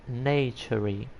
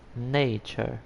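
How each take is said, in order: First: The word ends with an added 'ee' vowel. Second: The word ends without an added vowel. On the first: The speaker calls it wrong. "I was speaking naturey" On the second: The speaker calls it right. "it's nature"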